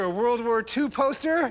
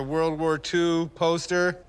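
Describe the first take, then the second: First: It is said with high energy. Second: It is said with low energy. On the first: The speaker calls it right. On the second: The speaker calls it wrong. "you just say it with such, like, uh, low energy"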